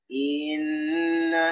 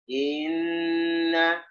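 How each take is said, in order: First: The first vowel is drawn out before the n. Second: The same.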